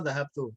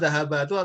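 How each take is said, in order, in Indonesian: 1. Tidak ada bunyi vokal di antara b dan t. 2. Ada bunyi vokal di antara b dan t. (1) "mbaknya disukun" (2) "Salah cetak ini"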